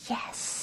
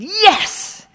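First: It is whispered. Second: It is said aloud.

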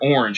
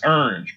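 First: The word has a standard American pronunciation. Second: The word has a Louisiana-style pronunciation. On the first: The speaker calls it right. "she could never pronounce the word orange" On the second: The speaker calls it wrong. "It was always orange"

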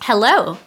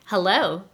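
First: It is said very loudly. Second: It is said more softly.

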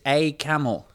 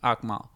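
First: The name is said as three syllables. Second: The name is said as two syllables. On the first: The speaker calls it right. "Apparently it's A Camel" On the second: The speaker calls it wrong. "we've been mispronouncing your name"

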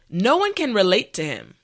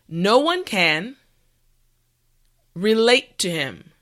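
First: The sentence is said at normal speed. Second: The sentence is said slowly. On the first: "the last time at a regular pace" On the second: "this time repeat after me"

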